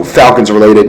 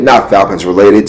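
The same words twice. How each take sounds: First: Said in the usual way. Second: "not" stressed, set against "Falcons related". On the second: Shown as a demonstration. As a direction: lean on "not" to contrast.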